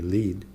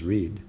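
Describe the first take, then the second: First: The name begins with an L sound. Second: The name begins with an R sound. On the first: This is how others say the name. The speaker calls it wrong. "Chinese people call me Lead" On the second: This is the name as its owner says it. The speaker calls it right. "My name is Reed"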